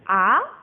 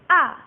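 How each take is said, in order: First: The pitch rises, like a surprised exclamation. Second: The pitch drops sharply, like an angry snap. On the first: "orang terkejut" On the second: "Yang keempat nadanya turun kayak orang marah"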